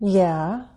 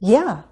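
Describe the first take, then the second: First: The pitch falls first and then rises. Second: The pitch rises first and then falls. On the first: The speaker hesitates and wants to know more first. "That last response sounds hesitant because it uses a fall-rise" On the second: The speaker agrees enthusiastically and is happy to help. "The second one is affirmative but with enthusiasm. It uses a rise-fall"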